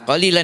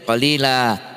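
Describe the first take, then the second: First: The word ends with an n sound. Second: The word ends with a long a vowel. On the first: The reader continues without stopping. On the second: The reader stops on this word.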